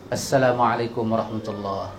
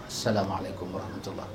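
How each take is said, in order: First: Soft salam demo. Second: Near-silent salam. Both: Shown as a demonstration. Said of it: "Bagi salam terus".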